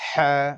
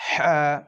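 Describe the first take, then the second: No difference in how they are said.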